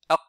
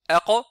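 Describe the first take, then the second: First: The final consonant is held silent, barely heard. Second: The final consonant ends with a clear bounce. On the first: The speaker calls it wrong. "certains disent aq" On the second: The speaker calls it right. "au lieu de dire aqa"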